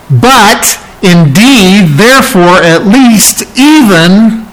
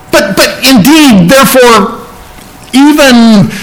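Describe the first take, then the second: First: Slow, broken phrases with pauses; halting, stuttering. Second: Much higher, tumbling out in bursts; mock excited stutter. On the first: Retold or imitated. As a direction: stammer it out in bits. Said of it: "it's almost like he's stuttering". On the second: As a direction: push the words out as if overflowing. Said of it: "like he wants to get this out so much".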